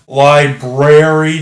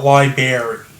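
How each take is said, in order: First: The r after the b is clearly pronounced. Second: The r after the b is dropped. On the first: The speaker calls it right. "just in case you weren't aware, library" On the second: The speaker calls it wrong. "not library"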